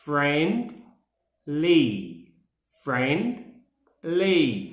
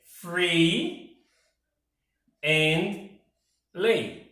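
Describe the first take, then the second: First: "friendly" slowly in two syllables, friend - ly; teacher sounding out "friendly" as two separate beats; slow syllable demo. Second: "free and ly" in three separated syllables; three spaced-out beats, "free - and - ly"; Portuguese-style syllable split. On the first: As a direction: split "friendly" after "friend", pausing before "ly". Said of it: "repeat it slowly for you". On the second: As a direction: break it into "free", "and", "ly" with clear gaps. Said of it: "we would probably put it". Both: Shown as a demonstration.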